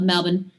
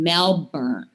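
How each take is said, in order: First: Melbourne is pronounced the way Australian locals say it. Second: Melbourne is pronounced the way Americans say it. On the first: The speaker follows local usage. The speaker calls it right. "I love Melbourne. Melbourne's a great city" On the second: Outsiders who have never been there say it this way. The speaker calls it wrong. "oh, you mean Melbourne?"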